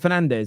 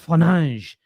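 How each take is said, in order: First: The name is said in an English way. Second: The name is said in a Portuguese way. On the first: "When we turn around and say" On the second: "you've got to say"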